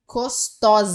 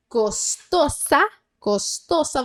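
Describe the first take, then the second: First: "costosa" with a buzzing z for the s; wrong Z sound. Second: "costosa" with a clear hissed s, no z; Spanish S. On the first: Teacher showing the tempting wrong z in costosa. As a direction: say "costosa" with the mistaken z. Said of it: "com esse som de Z". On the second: Teacher correcting the Spanish s in costosa. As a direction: hiss the s in "costosa" slowly. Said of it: "você vai fazer som de S". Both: Shown as a demonstration.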